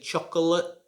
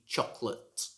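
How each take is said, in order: First: The middle vowel is clearly pronounced. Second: The middle vowel is silent. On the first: The speaker calls it wrong. "You should not say chocolate" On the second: The speaker calls it right. "a word with a silent vowel"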